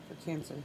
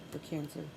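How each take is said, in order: Both takes have the same delivery.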